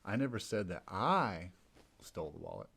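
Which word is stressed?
I. The stress is on the second "I".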